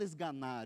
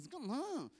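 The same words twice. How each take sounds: First: The word is said in a plain, calm way. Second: The word is forced out angrily, lip bitten. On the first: "A pessoa ela não fala esganar" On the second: "eu quero é um esganar, é mais ou menos assim"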